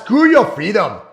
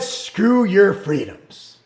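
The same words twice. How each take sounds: First: Badly done Austrian accent; mock Arnold with a clumsy Austrian accent; Arnold Schwarzenegger. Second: Said in the usual way. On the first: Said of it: "worst Arnold accent ever".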